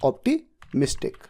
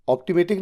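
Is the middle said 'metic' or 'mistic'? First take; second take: mistic; metic. First: The middle is said as 'mistic' with s. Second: The middle is said as 'metic' without s. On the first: The speaker calls it right. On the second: The speaker calls it wrong.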